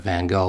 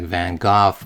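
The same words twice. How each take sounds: First: The name is said with an English pronunciation. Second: The name is said with a Dutch pronunciation. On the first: This is how it is commonly said in English. "the exhibit wanted you to pronounce it Van Gogh, which is how I've pronounced it all my life" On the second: This is how a native Dutch speaker says it. "I had a friend who uh, spoke fluent Dutch and was born in Holland and so on. He always said something like"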